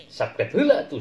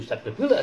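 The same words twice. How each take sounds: First: Said in the usual way. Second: Rising, laughing subscribe heula. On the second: Real, not acted.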